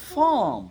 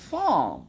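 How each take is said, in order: The two takes are said the same way.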